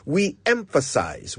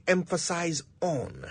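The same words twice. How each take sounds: First: We emphasize, with no on after it; teacher stating the correct usage; correct usage shown. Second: Emphasize on, the wrong way with on tacked on; teacher voicing the common mistake; wrong usage shown. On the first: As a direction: model the right form, just emphasize. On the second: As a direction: show the error, emphasize on, as a mistake. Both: Shown as a demonstration. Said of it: "that is just not right".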